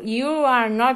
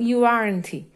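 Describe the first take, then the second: First: Each word is said separately, in full. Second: "Are" and "not" merge into one syllable. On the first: "Em vez de eu falar assim" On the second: "é bem mais rápido e mais fácil"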